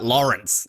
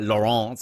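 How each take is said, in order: First: The name is said with an English pronunciation. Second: The name is said with a French pronunciation. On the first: "I just say like" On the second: "put like the French twang on it"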